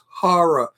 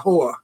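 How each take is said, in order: First: The word is said with two syllables. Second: The word is said with one syllable. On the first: The speaker calls it right. "The word is horror" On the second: The speaker calls it wrong.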